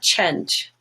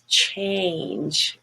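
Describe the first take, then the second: First: The vowel stays steady without gliding. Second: The vowel glides toward a y sound. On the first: The speaker calls it wrong. "It's not change" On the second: The speaker calls it right. "it's change"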